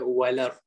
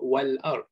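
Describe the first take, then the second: First: The glottal stop is dropped and the sounds link. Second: A glottal stop is pronounced before 'ard'. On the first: This is how the Warsh reading says it. "dia walar" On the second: This is how the standard reading says it. "Dia tak sebut wal ard"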